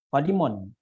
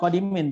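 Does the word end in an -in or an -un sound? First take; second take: -un; -in. First: The word ends with the sound 'un'. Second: The word ends with the sound 'in'. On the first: The speaker calls it right. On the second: The speaker calls it wrong. "Bukan qadimin tuh"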